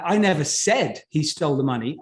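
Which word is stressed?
said. The word "said" carries the strongest stress. It was implied, not said. "I implied it, but I wrote it down. I didn't say it"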